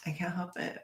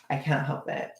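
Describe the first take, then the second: First: Whispered, barely voiced; whispered excuse. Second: Said in the usual way. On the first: Real, not acted. Streamer excusing herself to chat, whispering. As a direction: repeat it to yourself in a whisper.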